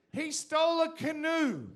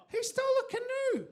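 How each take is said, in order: First: Loud, slow, laughing delivery; laughing punchline. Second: Much higher, loud, laughing; louder laughing shout. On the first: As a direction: laugh it out while shouting. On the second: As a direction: shriek it even higher in disbelief. Repeated punchline, laughing. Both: Acted.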